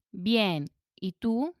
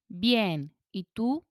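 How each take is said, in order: Both takes have the same delivery.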